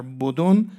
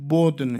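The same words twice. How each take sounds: First: بدن with a clear second "o" before the final n; two-vowel form. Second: بدن with d running straight into n; second vowel dropped. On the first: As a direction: say بدن as "bo-don", damma on both syllables. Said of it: "دو تا ضمه پشت سر هم". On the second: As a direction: say بدن as "bodn", one syllable. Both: Shown as a demonstration.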